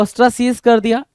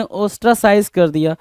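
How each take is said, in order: First: "ostracize" said slowly as os-tra-SEEZ; long ee in the last syllable of "ostracize"; "-seez" pronunciation. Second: "ostracize" said slowly as os-tra-SIZE; an "eye" vowel in the last syllable of "ostracize"; "-size" pronunciation. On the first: Teacher repeats both options for students, first "ostracize" as os-tra-seez. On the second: Teacher repeats both options for students, then "ostracize" as os-tra-size. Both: Shown as a demonstration. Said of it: "दोनों word में बोल रहा हूँ".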